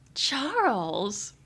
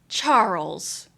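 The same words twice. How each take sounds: First: The name is said in a flirty tone. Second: The name is said in a scolding tone.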